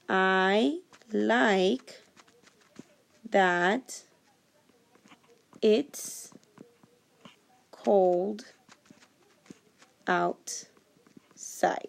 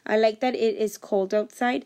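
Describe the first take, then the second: First: The words "it is" are joined as "it's". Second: The words "it is" are said separately. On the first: "I can put those two words together and instead say it's" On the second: "instead of saying it is"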